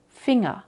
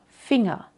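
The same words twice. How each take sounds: Both takes have the same delivery.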